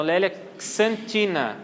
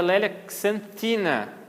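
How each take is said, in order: First: "xantina" starting "ks", with Portuguese "tchi". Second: "xantina" starting "ks", with English TH for the T; KS plus TH. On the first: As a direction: sound out "lélia xantina" with KS and CHI. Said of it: "equivale ao som de K S". ("xantina" com KS e "tchi") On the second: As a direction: sound out "lélia xantina" with KS and TH. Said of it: "Aí tem o T H". ("xantina" com KS e TH do inglês) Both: Shown as a demonstration.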